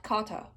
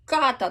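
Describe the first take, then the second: First: Kata said the wrong way, lighter; the kata to avoid. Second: Kata said clearly, louder; correct kata. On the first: Coach showing the wrong kata. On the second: Coach contrasting right and wrong kata. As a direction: give kata its proper consonant. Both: Shown as a demonstration. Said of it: "not kata".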